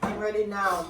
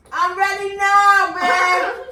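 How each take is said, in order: First: Said in the usual way. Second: Higher, louder and slow; emphatic. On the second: Real, not acted. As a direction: drag it out, loud and high. Repeats, then says it emphatically.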